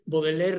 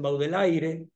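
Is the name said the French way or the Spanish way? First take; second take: French; Spanish. First: The name is said with French pronunciation. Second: The name is said with Spanish spelling pronunciation. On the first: The speaker calls it right. "Todo el mundo dice Baudelaire" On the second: The speaker calls it wrong. "no dicen Baudelaire"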